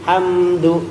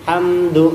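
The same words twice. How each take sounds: No difference in how they are said.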